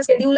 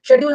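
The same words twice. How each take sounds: First: "शेड्यूल" begun with SK, as "skedule"; American-style "शेड्यूल" with a hard k after the s; American pronunciation. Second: "शेड्यूल" begun with SH; British-style "शेड्यूल", no k sound after the s; British pronunciation. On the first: Teacher showing students how Americans say it, sk-initial "शेड्यूल". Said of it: "American में बोलते हैं". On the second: Teacher showing students how the British say it, sh-initial "शेड्यूल". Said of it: "हम British में बोलते हैं". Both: Shown as a demonstration.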